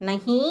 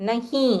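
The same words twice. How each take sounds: The two takes are said the same way.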